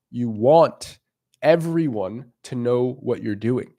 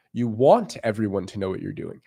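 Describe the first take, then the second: First: "want" leaned on, then the rest slow and deliberate; stress on want. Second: Said in the usual way. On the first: Shown as a demonstration. Coach stressing his key point to viewers, slow with "want" stressed. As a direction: underline the word "want" with your voice, slowly. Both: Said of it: "I underlined want".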